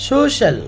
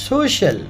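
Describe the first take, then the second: The two takes are said the same way.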